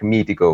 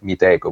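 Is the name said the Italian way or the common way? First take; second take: Italian; common. First: The name is said like the Italian word mitico. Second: The name is said the way most people say it. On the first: This is the intended pronunciation, meaning awesome. "we were actually meaning to have it pronounced like Mitico, which means awesome in Italian" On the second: This is how most people say the name. "adding the H there actually made it make it sound like Miteco, which is how most people pronounce it"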